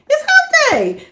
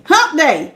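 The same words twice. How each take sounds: First: Hump said high and bright; excited high cheer for the midweek; excited squeal. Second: Said in the usual way. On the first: Shown as a demonstration. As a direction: sing it out with glee, up high.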